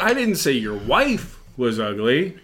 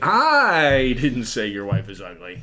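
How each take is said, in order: First: The stress is on "wife". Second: The stress is on "I".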